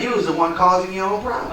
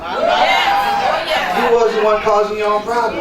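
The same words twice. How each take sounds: First: Said in the usual way. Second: "You" hit hard, drawn out slowly and loud; slow preaching repeat, leaning on "You"; stress on You. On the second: Acted. Repeats line for emphasis.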